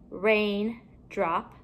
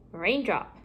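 First: Two separate parts. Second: Said in the usual way. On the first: Shown as a demonstration. Teacher building compound words for pupils, halves kept apart. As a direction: leave a gap between RAIN and DROP.

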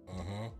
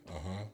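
Both takes have the same delivery.

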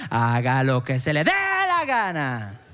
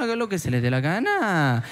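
First: Slow, drawn-out fed-up dad, lingering on dé; Andrés López father. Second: Fed-up father. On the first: Father finally giving in to his son, slow resigned comic delivery. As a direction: lay it on slow and resigned like a comedian's dad bit. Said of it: "Así como Andrés López". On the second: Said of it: "Y el papá le dice". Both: Retold or imitated.

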